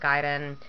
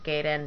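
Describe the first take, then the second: First: The word is pronounced the Japanese way. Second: The word is pronounced in an anglicized way. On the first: It is the correct name. The speaker calls it right. "Yes, I know it's Gaiden" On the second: It is the name used since childhood. The speaker calls it wrong. "the pronunciation I use with my brother"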